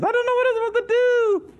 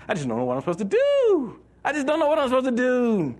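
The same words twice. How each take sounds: First: Very high, squeaky whine; exaggerated hippie whine. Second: High, whiny lost-soul voice; whiny hippie. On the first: Preacher mocks directionless believers in a squeaky high voice. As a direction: push the whine to a cartoon squeak. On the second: Retold or imitated. Preacher mocks directionless believers in a whiny high voice. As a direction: whine it like a drifting hippie. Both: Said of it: "the hippies followed us".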